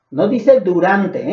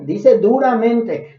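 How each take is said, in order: First: A slow "durante" with the last vowel held; slow, drawn-out "durante" as the misreading; wrong word durante. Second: A slow "duramente" with the "-mente" clearly sounded; slow, emphatic "duramente" as the correction; correct word duramente. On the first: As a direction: say "durante", not duramente. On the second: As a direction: say "duramente" in full. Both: Shown as a demonstration.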